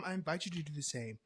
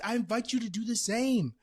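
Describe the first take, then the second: First: Said in the usual way. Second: Raised, high invitation to the audience; loud invitation. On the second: Real, not acted. Host inviting listeners, high and loud.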